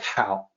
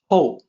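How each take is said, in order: First: The vowel sounds like the one in 'cow'. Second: The vowel sounds like the one in 'go'. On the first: The speaker calls it wrong. "it's going to look like it should be pronounced like how, like how are you" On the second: The speaker calls it right. "No, it's actually Hou"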